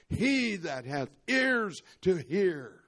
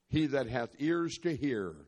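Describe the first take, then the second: First: It is said loudly, crying out. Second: It is said in a calm conversational tone. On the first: "He cried out" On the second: "he didn't say it in a conversational tone like I just shared it with you"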